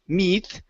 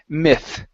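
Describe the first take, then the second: First: The vowel is a long E sound. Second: The vowel is a short I sound. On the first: The speaker calls it wrong. "instead of a long E" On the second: The speaker calls it right. "a short I sound"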